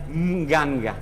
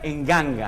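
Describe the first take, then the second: First: The word starts with a nasal ng sound. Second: The word starts with an added e vowel. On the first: The original form keeps the prenasal sound. "la verdadera palabra es nganga" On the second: A vowel is added before the nasal. "le ponen una vocal delante"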